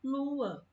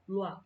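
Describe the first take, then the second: First: "lua" split as LU-a, stressed long U; "lua" sounded out in two falling syllables. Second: "luar" run together as one syllable, lwá; "luar" as a short lwá; wrong merged pronunciation. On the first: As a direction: let "lua" hop from a long U onto a separate A. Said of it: "A gente fala lua". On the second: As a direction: say "luar" in one beat, no hop between vowels. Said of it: "a gente não fala luar". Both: Shown as a demonstration.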